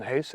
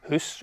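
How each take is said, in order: First: "house" with an ow diphthong, as in now; English ow in "house"; English pronunciation. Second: "hoose" with a long oo, as in goose; Scots pronunciation. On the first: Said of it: "rather than house". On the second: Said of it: "perfectly all right to say". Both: Shown as a demonstration.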